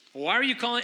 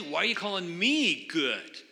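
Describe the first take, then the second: First: Said in the usual way. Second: "me" leaned on as the key word; stress on me. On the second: Shown as a demonstration. Pastor quoting Jesus to the congregation, stressing "me". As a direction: punch "me" in "why are you calling me good". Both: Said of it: "the emphasis is on the word me".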